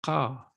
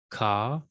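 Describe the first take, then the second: First: "ka" with the K popped at the back of the throat; guttural Q. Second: Said in the usual way. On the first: Shown as a demonstration. Teacher going down the chart, guttural "ka". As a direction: say "ka" as a guttural Semitic Q. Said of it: "kind of a pop in the back of the throat". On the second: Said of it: "common to Semitic languages, but we don't".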